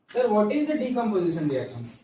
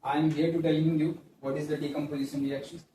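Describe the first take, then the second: First: Lightly voiced pupil asking the teacher; slow classroom question, a hint of student; student's question. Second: Slow, lower teacherly answer to a pupil; reply patiently with a hint of ceremony; teacher's reply. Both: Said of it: "Wait, Balak".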